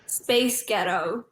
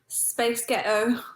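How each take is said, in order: First: It is said in an American accent. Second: It is said in her own accent.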